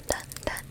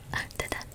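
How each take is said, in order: Both takes have the same delivery.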